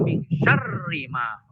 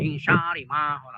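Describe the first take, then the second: First: The r is pronounced doubled, held longer. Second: The r is pronounced single, without doubling. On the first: The speaker calls it right. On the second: The speaker calls it wrong. "Ya salah"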